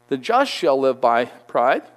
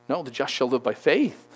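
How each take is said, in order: First: Mock misquote, slow and deliberate; wrong version on purpose. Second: Corrected, rising on faith; the correct version. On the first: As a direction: say the wrong word as a setup. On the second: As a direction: set it right, leaning on faith. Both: Shown as a demonstration.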